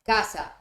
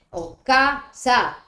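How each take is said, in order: First: La, pause, then casa on a falling tone; pause before casa. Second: Casa said slowly and loudly, drawn out; slow stretched casa. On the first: (pausa marcada antes de casa) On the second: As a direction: drag out casa as a contrast. (casa lenta, alargada y más fuerte) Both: Shown as a demonstration. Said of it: "Si yo corto la casa".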